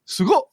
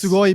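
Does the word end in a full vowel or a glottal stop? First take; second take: glottal stop; full vowel. First: The word is cut short with a glottal stop. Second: The word ends with its full final vowel.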